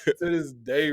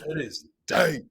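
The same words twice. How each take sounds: First: It is said in a put-on deep voice. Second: It is said in the speaker's normal voice.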